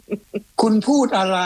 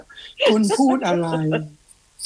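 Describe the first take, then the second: First: Slow, high voice like a phone assistant, rising at the end; slow, higher mock assistant voice with a rising question; mock Siri voice. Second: Mock Siri voice. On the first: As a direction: imitate Siri asking a question, drawn out and higher. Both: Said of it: "สิริ".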